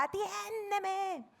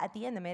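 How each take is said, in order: First: "atiéndeme" cried out much higher and drawn out slowly; desperate plea. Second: Said in the usual way. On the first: Shown as a demonstration. Preacher shows David's desperate cry to God, "atiéndeme" pleaded high and slow. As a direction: stretch "atiéndeme" high and slow like a begging prayer. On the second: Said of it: "O sea, que no era".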